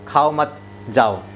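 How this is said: There is a pause after मत.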